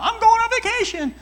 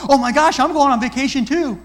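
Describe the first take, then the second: First: Much higher and louder, gushing voice; excited friend. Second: A hammed-up me-too squeal, higher and much louder; mock one-upping. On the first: Retold or imitated. Friend answering the question, bubbling with excitement. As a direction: gush it like you can't wait to go. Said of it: "what are you all geeked out about". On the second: Listener hijacking a friend's news, mock one-upping. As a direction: steal the moment and make it about you. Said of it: "You don't go".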